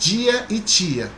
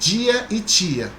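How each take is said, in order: First: The t and d are palatalized, like ch and j. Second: The same.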